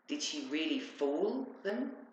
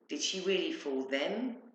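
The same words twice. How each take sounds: First: The stress falls on the word fool. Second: The stress falls on the word them. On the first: It questions whether they were actually deceived. "They believed her" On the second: It questions whether such clever people were deceived. "Because they seemed very intelligent and not easily fooled"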